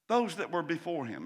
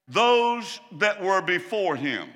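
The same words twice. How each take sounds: First: Said in the usual way. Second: "Those" hit loud and drawn out; slow, loud, weight on "Those"; preacher stresses "Those" slowly; emphatic. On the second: Shown as a demonstration.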